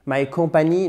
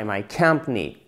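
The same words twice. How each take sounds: First: "my company" with French-style full vowels, every syllable sounded; French-accented "my company", evenly stressed; wrong stress. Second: "My company" with "com" hit, falling away after; English "My company", swallowed middle syllable; first-syllable stress. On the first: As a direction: mispronounce "company" as "kom-pa-nee", ending up. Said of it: "non, ça marche pas". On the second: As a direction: say "company" as "KUMP-nee", dropping in pitch. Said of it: "Faut vraiment taper sur la première syllabe". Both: Shown as a demonstration.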